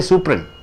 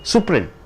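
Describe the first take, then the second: First: The t and d sounds are dropped. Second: The same.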